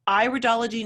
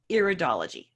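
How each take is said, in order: First: The first syllable sounds like 'eye'. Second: The first syllable sounds like 'ear'. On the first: The speaker calls it right. "it's pronounced iridology" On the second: The speaker calls it wrong. "not iridology"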